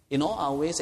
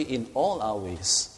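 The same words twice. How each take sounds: First: Emphasis on "In", ahead of "all our ways"; stress on IN. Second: "all" stretched out slowly and weighted; slow, deliberate emphasis landing on "all"; stress on ALL. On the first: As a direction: lean on the word "In" as the key word. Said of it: "we place emphasis on the word". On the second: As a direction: draw out the word "all". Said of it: "The emphasis is on all". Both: Shown as a demonstration.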